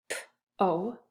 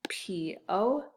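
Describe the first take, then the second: First: "P-O" as a bare p, then long oh; sounded out. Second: "P O" as letter names pee, oh; name both letters of "P O"; spelled out. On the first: Teacher tapping out a syllable, "P-O" as isolated sounds. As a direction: tap out "P-O" in two separate sounds. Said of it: "and the second syllable". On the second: Teacher spelling the syllable, "P O" in letter names. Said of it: "P O N Y". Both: Shown as a demonstration.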